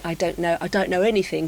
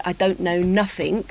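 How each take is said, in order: First: Lightly imitated fake Cockney accent; well-spoken man's put-on Cockney, with "anything" lightly Cockney; Mockney. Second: Lightly imitated Cockney accent; Cockney, with NOTHING said as "nuffink"; real Cockney. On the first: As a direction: demonstrate a mild Mockney accent. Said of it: "a rock singer would say". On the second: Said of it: "a real Cockney would say". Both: Shown as a demonstration.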